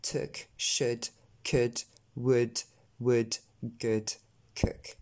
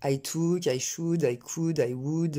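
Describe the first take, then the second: First: "Took", "should", "could", "would" with a short eu-like vowel; low, separated "good", "cook", no French ou; correct vowel. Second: "took", "should", "could", "would" with a long French ou; French-accented mispronunciation. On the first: Teacher getting rid of the ou habit, correct pronunciation. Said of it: "on va essayer de s'en débarrasser". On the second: Teacher showing learners' tendency to say ou, French-accented mistake. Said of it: "tendance à prononcer en ou". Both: Shown as a demonstration.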